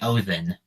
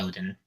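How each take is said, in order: First: The middle consonant is a soft 'th' sound. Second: The middle consonant is a hard 'd' sound. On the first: This is the original Norse pronunciation. "a D in Norse is a T H sound" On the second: This is the modernized pronunciation. "people just sort of modernize it to Odin because D makes a D sound"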